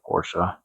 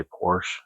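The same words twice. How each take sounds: First: "Porsche" said "POR-shuh", two syllables. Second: "Porsche" said "porsh", one syllable. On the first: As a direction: add an uh to the end of "Porsche". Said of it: "instead of Porsche". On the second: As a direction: leave the final e of "Porsche" silent. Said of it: "I should say Porsche instead of Porsche". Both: Shown as a demonstration.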